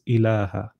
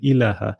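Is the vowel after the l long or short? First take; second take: long; short. First: The vowel after the l is long. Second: The vowel after the l is short. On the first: It is read with the unwritten alif. The speaker calls it right. "because it's well known that there's an alif there, it's" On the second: It is read as written, without the alif. The speaker calls it wrong. "if you were reading it, looking at it as is, you would say"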